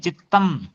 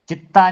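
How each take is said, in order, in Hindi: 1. शब्द साफ़ m ध्वनि से खत्म होता है। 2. शब्द स्वर से खत्म होता है, m के बिना। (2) "चित्ता नहीं है"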